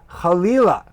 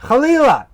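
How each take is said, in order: First: Said in the usual way. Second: Chalila shouted high and loud; outraged exclamation. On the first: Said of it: "is chalila". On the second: Shown as a demonstration. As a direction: burst out with chalila in horror. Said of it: "not just this idea, but this feel".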